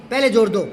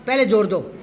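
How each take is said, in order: Both takes have the same delivery.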